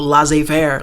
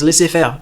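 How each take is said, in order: First: It is pronounced with an anglicized sound. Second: It is pronounced with a French sound. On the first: Someone else said it this way. The speaker calls it wrong. "my history professor was like" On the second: This is how the word should be said. The speaker calls it right. "Like no, it's"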